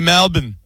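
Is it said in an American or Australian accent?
Australian. It is said with an Australian accent.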